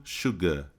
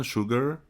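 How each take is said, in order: First: "sugar" ending in a long open a, no r; the British "sugar"; British English. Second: "sugar" with an American r at the end; American English. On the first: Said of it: "E no inglês britânico". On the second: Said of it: "no inglês americano". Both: Shown as a demonstration.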